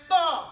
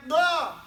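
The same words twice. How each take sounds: First: LAW begun at the top of the back of the mouth; loud LAW, started higher than the throat; back-of-mouth sound. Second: LAW begun down at the top of the throat; loud throaty opening on LAW; deeper throat sound. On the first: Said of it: "the back of the mouth". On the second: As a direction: start LAW lower in the throat, loudly. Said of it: "You hear one is lower". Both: Shown as a demonstration.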